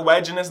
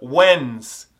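First: Every written letter of the word is pronounced. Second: Some written letters of the word are silent. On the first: The speaker calls it wrong. "Ignora o que está escrito ali, não é Wednesday não" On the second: The speaker calls it right. "É Wednesday"

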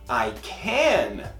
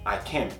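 First: The word can is stressed with a full vowel. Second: The word can is weak with a schwa.

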